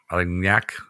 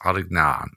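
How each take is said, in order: First: The ending rhymes with cognac. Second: The ending does not rhyme with cognac. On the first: The speaker calls it right. "like cognac" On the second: The speaker calls it wrong. "I didn't say that right"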